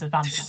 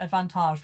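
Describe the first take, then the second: First: Said in the usual way. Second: "advantage" with a French "-tahzh" ending; French pronunciation. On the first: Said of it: "it just sounds the same as advantage". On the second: Shown as a demonstration. Laughing at the ref's call, French-accented "advantage". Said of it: "you don't need to put the accent on it".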